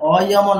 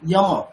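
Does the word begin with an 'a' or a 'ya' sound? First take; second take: a; ya. First: The word begins with a plain 'a' vowel. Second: The word begins with a 'ya' glide sound. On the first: The speaker calls it wrong. "অয়ম নয়" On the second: The speaker calls it right.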